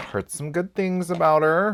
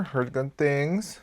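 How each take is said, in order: First: Said in the usual way. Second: Slow, drawn-out repeat; slow knowing repeat. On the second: Shown as a demonstration. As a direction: let each word hang.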